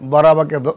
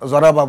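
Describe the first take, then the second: First: The word begins with a d sound. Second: The word begins with a j sound. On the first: "যেমন আমরা দরাবাকে" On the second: "জরাবা বলি আর কি"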